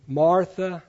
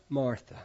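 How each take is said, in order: First: Gentle calling of a name, slightly raised; tender call. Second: Softer, falling, loving rebuke; tender. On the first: Jesus gently calling Martha by name, tender. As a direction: call her name with loving concern. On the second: Jesus softly correcting Martha, soft and tender. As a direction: let the name fall gently, like a caress. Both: Retold or imitated. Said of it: "Can you hear the tenderness in that?".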